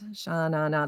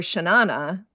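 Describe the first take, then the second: First: All three syllables are stressed with full vowels. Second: Some syllables are unstressed with reduced schwa vowels. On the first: "Those are like three accented syllables" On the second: "then you could put some schwas in there"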